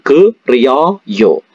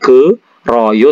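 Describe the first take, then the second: First: The middle syllable glides as 'rio' sound. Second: The middle syllable is a plain 'ro' sound. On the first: The speaker calls it right. "tapi ke Rio yo" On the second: The speaker calls it wrong. "bukan ke Royo"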